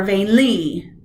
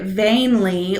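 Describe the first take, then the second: First: "vainly" as vain-LY, second syllable wrongly stressed. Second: "vainly" as VAIN-ly, first syllable stressed. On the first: Teacher offering students the wrong option, "vainly" stressed on LY. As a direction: push LY in "vainly", light first syllable. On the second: Teacher asking students which stress is right, "vainly" stressed on VAIN. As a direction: lean on VAIN in "vainly", light second syllable. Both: Shown as a demonstration. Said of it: "you don't get to pick".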